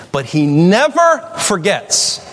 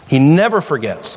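First: Never drawn out high and slow; stress on never. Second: Said in the usual way. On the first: Real, not acted. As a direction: lean hard on "never", slowing right down. Preacher stresses God never forgets.

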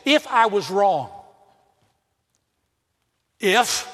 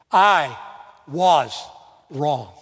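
First: Grudging conditional apology, half-hearted; the wrong way to apologize, with a hedging if. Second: I was wrong said slowly, each word its own beat with pauses between; right apology. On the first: Pastor mocks an insincere apology, hedging and half-hearted. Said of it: "never say that". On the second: Pastor shows how to humbly apologize, slow with pauses between words. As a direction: lean on I and was, let wrong settle low. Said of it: "lay yourself at their feet". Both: Shown as a demonstration.

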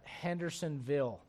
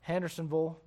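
First: Said in the usual way. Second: Tennessee "Hendersonville" ending in a short -vul; Tennessee accent. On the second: Shown as a demonstration. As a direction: say "Hendersonville" like a Tennessee local, -ville swallowed to vul. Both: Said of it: "people talk a little bit different there".

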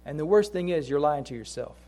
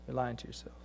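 First: Said in the usual way. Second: Much softer and lower, with the weight on "lying"; quiet echo. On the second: Acted. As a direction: drop to a near hush on "You're lying to yourself". Quiet echo of the same phrase.

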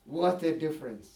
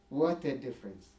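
First: Said in the usual way. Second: Repeated softly, lower and quieter. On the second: Real, not acted. Preacher marvelling to his congregation, softly. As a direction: let the awe sink in, hushed.

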